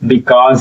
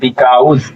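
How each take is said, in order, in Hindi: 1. दूसरा स्वर 'aw' जैसा सुनाई देता है। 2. दूसरा स्वर 'ow' जैसा सुनाई देता है। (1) "बिकॉज होता है" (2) "बिकाउज नहीं होता है"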